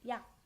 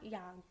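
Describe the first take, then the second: First: The final sound stops before any release. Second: The final g sound is fully released. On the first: The speaker calls it right. "At the very end, you drop only the g sound" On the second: The speaker calls it wrong. "not yag"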